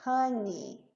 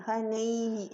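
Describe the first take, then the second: First: "honey" ending in a clear short "i" sound, hun-ee; correct i ending. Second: "honey" ending in an "ei" sound, like hon-ei; wrong ei ending. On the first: Shown as a demonstration. Teacher models the correct ending for students, final i. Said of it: "não tem esse ei". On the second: Retold or imitated. Teacher imitates students' mispronunciation, ending in ei. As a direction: say "honey" with the final vowel as "ei", the common mistake. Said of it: "a gente fazendo esse ei".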